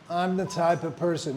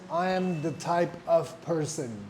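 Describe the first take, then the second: First: 'I am' is contracted to one syllable. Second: 'I am' is said as two full words. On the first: The speaker calls it right. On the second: The speaker calls it wrong.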